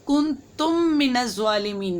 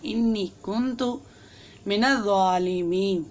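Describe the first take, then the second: First: कुन्तुम said with an added m, as kuntum; the mistaken kuntum reading; wrong pronunciation. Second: इन्नी कुन्तु said innee kuntu, no added m; the correct innee kuntu reading; correct pronunciation. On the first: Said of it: "नहीं पढ़ना". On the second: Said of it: "आपने पढ़ना है". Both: Shown as a demonstration.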